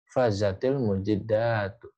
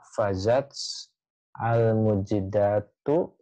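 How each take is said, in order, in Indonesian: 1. T di akhir disambung ke kata berikutnya dengan bunyi i. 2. T di akhir tetap dipisah dari kata berikutnya. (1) "kenapa dikasroh? Karena wasol" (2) "ini bisa dibaca fazats al mujidatu"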